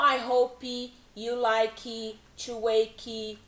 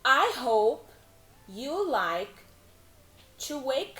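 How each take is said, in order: First: Wake ends with an added vowel sound. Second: Wake ends on the k, with no vowel. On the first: The speaker calls it wrong. "Não" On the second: The speaker calls it right. "tentar reduzir esse E aí"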